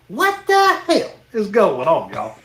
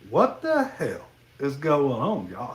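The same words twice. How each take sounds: First: It is said loudly and very forcefully. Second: It is said flatly with no emphasis.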